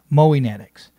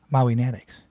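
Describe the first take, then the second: First: The first part sounds like 'Moe'. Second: The first part sounds like 'Maui'. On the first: The speaker calls it right. "It's Moe Natics" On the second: The speaker calls it wrong. "I've been saying that incorrectly. It's not Maui Natics"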